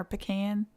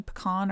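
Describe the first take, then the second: First: "pecan" with the vowel of "can", stressed last; pecan as puh-KAN. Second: "Pecan" with a stressed, open AH at the end; pecan as puh-KAHN. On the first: Listing options for viewers, "pecan" as puh-KAN. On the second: Listing options for viewers, "Pecan" as puh-KAHN. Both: Shown as a demonstration. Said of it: "what would be the other option?".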